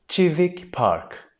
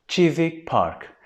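No difference in how they are said.

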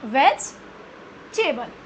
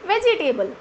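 First: The word is said with three syllables. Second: The word is said with four syllables. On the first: The speaker calls it right. "It's वेजिटेबल" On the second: The speaker calls it wrong. "It's not वेजिटेबल, it's आर blunder"

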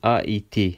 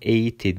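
First: The a and i are said as separate vowels. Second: The two vowels merge into one e sound. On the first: The speaker calls it right. "Trem olduğu için AIT şeklinde okuyoruz" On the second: The speaker calls it wrong. "Biz bunu EIT diye okumuyoruz"

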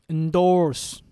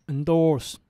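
The two takes are said the same way.

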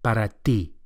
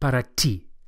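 First: The t is soft, made with the flat tongue. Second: The t is hard and English-like. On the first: The speaker calls it right. "the Spanish T is also softer than English and produced with the flat of the tongue" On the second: The speaker calls it wrong. "Not para ti"

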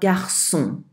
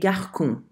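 First: The middle consonant is a soft S sound. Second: The middle consonant is a hard K sound. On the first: The speaker calls it right. "Think of the word garçon" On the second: The speaker calls it wrong. "If the cedilla were not there, it would be garçon"

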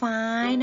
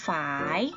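First: The syllable has a high tone. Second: The syllable has a rising tone. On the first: "เสียงตรี" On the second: "เสียงจัตวา"

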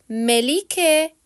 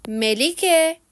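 No difference in how they are said.

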